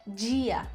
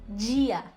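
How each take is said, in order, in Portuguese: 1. O d é suavizado num som 'dj' chiado. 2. O d é suavizado num som 'dj' chiado.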